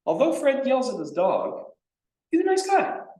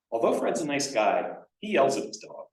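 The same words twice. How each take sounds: First: Much higher and louder, lifting brightly onto nice guy; ending on the good news. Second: Louder demo read, each clause falling to a close, yells carrying the weight; ending on the bad news. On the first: A lecturer tests students with an example sentence, upbeat ending. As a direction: make he's a nice guy the bright, lasting close. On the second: A lecturer tests students with an example sentence, weighted on the bad part. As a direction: let yells at his dog land last and heavy. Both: Shown as a demonstration. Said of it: "you tell me if they line up".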